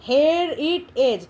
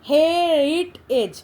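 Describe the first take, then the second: No difference in how they are said.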